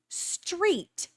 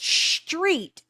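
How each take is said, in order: First: The opening 'str' sound is said clearly. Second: The opening 'str' sound is slurred. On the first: The speaker calls it right. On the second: The speaker calls it wrong.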